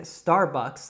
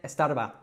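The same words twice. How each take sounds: First: It is said in an American accent. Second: It is said in an Andalusian accent, sounds cut. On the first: "like I would say it in the United States" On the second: "he was saying Starbucks"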